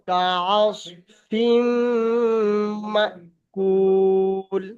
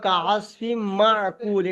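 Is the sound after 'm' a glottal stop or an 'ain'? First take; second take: glottal stop; ain. First: A glottal stop follows the 'm'. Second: A throaty 'ain' follows the 'm'. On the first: The speaker calls it right. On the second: The speaker calls it wrong.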